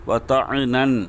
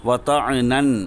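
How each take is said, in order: No difference in how they are said.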